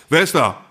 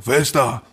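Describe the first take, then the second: First: Higher, sharper call at the door; retold shout. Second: Mildly raised challenge at the door; a half-strength reflex shout; retold shout. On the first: Man demonstrates his reflex at the knock, higher retold shout. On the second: Startled man calls through his door, mild retold shout. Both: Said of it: "also alle so geschrien".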